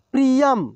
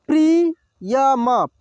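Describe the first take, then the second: First: Said in the usual way. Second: Priyam drawn out slowly, syllable by syllable; slow sounding out. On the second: Shown as a demonstration. Teacher slowly sounds out Priyam for students. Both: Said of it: "एक एक मात्रा को अलग अलग करके".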